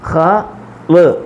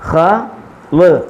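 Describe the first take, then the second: The two takes are said the same way.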